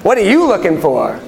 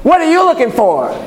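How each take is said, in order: First: Pointed question with "you" punched up in pitch; stress on YOU. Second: High-pitched, punchy challenge; pitched-up, pressing "what are you looking for?"; demanding tone. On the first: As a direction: lean hard on "you", then drop down. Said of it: "That's different". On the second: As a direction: fire it off as a high, pointed question. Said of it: "Like you could say". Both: Shown as a demonstration.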